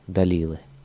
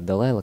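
First: The second vowel is said as 'ee'. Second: The second vowel is said as 'eye'. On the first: The speaker calls it wrong. "Стихи Далилы" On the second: The speaker calls it right. "хотя она Далайла, конечно"

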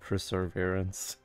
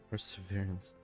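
First: It has an R sound before the V. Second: It has no R sound before the V. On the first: The speaker calls it right. "I like perseverance" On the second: The speaker calls it wrong. "That feels wrong"

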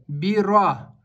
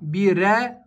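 First: The r is heavy and followed by a deep a. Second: The r is light and followed by an e. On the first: The speaker calls it right. "Буква «ра» твердая" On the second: The speaker calls it wrong. "Произносят ее как «э». Это тоже является ошибкой"

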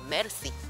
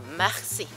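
First: The r is a light tongue tap. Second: The r is a raspy sound in the throat. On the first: The speaker calls it wrong. "메르시가 아니라" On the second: The speaker calls it right. "R 발음을 리을처럼 하지 않고 히읗으로 합니다. 근데 거기다가 목을 긁어야 돼"

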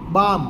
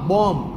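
First: The first vowel is an open 'aa' sound. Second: The first vowel is an open 'o' sound. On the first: This is the standard form. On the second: This is the Charotar dialect form.

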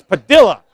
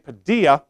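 First: The double L sounds like an L. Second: The double L sounds like a Y. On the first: The speaker calls it right. "everyone's been mispronouncing my name. It's Padilla" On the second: The speaker calls it wrong. "double L, you pronounce like a Y"

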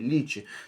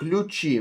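First: The first syllable is said with an 'ee' sound. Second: The first syllable is said with a 'yoo' sound. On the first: The speaker calls it right. "а лічі" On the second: The speaker calls it wrong. "не лючі"

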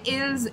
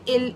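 First: The word ends with an audible s sound. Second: The word ends without any s sound. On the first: The speaker calls it wrong. "I will not say ills" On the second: The speaker calls it right. "I will say ill"

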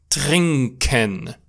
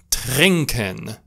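Both takes have the same delivery.

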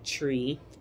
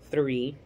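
First: It starts with a plain t sound. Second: It starts with a th sound. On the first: The speaker calls it wrong. "in patois, like tree" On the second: The speaker calls it right. "trying to pronounce the word properly"

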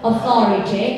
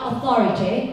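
First: Spoken in a British accent with a crisp T. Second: The same.

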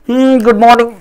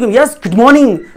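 First: It is said sleepily with low energy. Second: It is said with lively energy.

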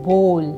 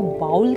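First: The vowel sounds like 'oh'. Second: The vowel sounds like 'ow'. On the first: The speaker calls it right. "My eighth word is" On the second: The speaker calls it wrong. "जो बिल्कुल गलत तरीका"

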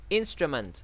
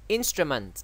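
No difference in how they are said.

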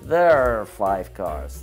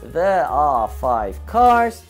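First: 'There are' is shortened into one reduced syllable. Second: Both words 'there are' are said in full.

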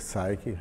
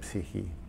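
First: It is said with an English pronunciation. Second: It is said with a Greek pronunciation. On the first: The speaker calls it wrong. "you don't say psyche" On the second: The speaker calls it right. "in Greek, you say, you say psyche"

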